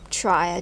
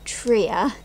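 First: The first syllable sounds like 'try'. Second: The first syllable does not sound like 'try'. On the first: This is the speaker's personal preference. "I personally prefer to call them tria due to the way they're spelt, and tricycle and tripod" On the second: This is the official pronunciation. "the official term of pronouncing this is actually tria"

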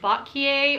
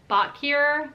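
First: The name is pronounced the French way. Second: The name is pronounced the English way. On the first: "like a French pronunciation like Bocquier" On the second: "or if it's Bocquier"

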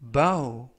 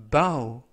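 No difference in how they are said.

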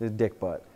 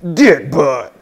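First: It is said in an ordinary speaking voice. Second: It is said in an exaggerated put-on voice. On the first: The speaker calls it wrong. "No one will understand you if you say Dick Butt" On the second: The speaker calls it right. "you have to say it in that voice"

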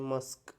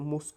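First: The vowel sounds like 'uh', as in 'cup'. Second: The vowel sounds like 'oo', as in 'book'. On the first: The speaker calls it right. "Pronunciation कसं आहे, मस्क" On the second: The speaker calls it wrong. "इथं मुस्क नाही म्हणायचं"

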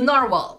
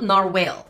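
First: The word ends with a short 'wal' sound. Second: The word ends with a 'whale' sound. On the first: The speaker calls it right. "It's a narwhal, right?" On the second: The speaker calls it wrong. "Not narwhale"

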